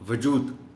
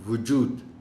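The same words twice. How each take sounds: First: The first syllable has a short a vowel. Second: The first syllable has a short u vowel. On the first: The speaker calls it wrong. "वजूद कह जाते हैं लोग" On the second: The speaker calls it right. "वाव के ऊपर पेश ... लफ्ज़ है वजूद"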